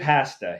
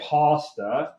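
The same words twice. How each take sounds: First: It is said with a Canadian pronunciation. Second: It is said with a non-Canadian pronunciation.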